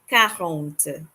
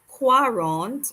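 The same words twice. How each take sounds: First: It starts with a plain K sound. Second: It starts with a KW sound. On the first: The speaker calls it right. "but K, quarante" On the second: The speaker calls it wrong. "it is not quarante"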